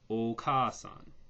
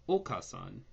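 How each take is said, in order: First: The vowel after 'k' is long and stronger. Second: The vowel after 'k' is short. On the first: The speaker calls it right. "it's got to sound like Oka-san" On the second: The speaker calls it wrong. "Not Oka-san"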